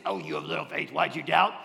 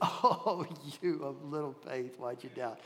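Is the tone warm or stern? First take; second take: stern; warm. First: It is said sternly, as a rebuke. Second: It is said warmly, with a laugh.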